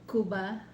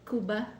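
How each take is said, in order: Both takes have the same delivery.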